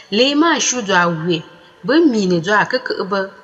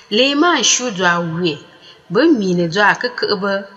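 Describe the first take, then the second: No difference in how they are said.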